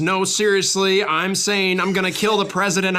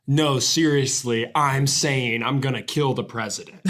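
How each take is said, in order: First: Higher horse-race commentary delivery; Derby race announcer. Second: Said in the usual way. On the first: Acted. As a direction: reel off the horse's name like a race caller. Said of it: "the announcers of the Kentucky Derby". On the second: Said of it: "you named your horse, like".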